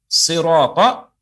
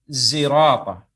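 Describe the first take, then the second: First: The word begins with an emphatic s sound. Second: The word begins with a z sound. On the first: The speaker calls it right. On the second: The speaker calls it wrong. "ia rubah dohot zirata"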